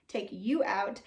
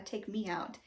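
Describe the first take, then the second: First: "you" stressed as a correction. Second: Said in the usual way. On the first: Real, not acted. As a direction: lean on "you" to fix the slip.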